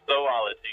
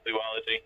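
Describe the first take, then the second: First: The first syllable is said like 'zoh'. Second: The first syllable is said like 'zoo'. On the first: The speaker calls it right. "it's zoology" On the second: The speaker calls it wrong. "not zoology"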